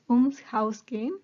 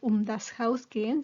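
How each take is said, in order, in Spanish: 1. Um y das se unen en ums. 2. Um y das se dicen como palabras separadas. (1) "se diría acortando, uniendo esas preposiciones" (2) "normalmente se diría"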